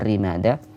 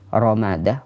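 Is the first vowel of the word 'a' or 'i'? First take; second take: i; a. First: The first syllable has the vowel 'i'. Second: The first syllable has the vowel 'a'. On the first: The speaker calls it wrong. "bukan rimadah" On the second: The speaker calls it right. "dibaca dengan ra yang fathah"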